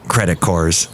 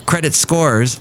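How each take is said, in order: First: "cores" for scores, the first s dropped; misread word. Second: Said in the usual way. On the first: Real, not acted. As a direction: say "cores" with no s at the start. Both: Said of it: "I missed an S".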